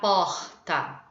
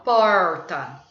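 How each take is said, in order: First: It is said with a Carioca accent. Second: It has the pulled caipira R.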